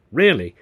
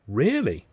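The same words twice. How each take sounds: First: Loud, firm falling answer; emphatic confirmation. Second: Surprised question. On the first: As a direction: confirm it with full assurance. Emphatic answer to her surprised question. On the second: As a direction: check it, hardly believing. Surprised question, then his confirming echo. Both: A narrator's reading.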